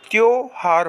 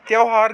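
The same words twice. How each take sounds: First: त्योहार as "tyo-haar"; correct o vowel. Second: त्योहार as "tyau-haar"; wrong au vowel. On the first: Teacher giving students the right form, pure o. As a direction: give त्योहार a pure o first. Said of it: "त्योहार होता है". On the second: Teacher showing students the mistake, vowel widened. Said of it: "गलत होता है". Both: Shown as a demonstration.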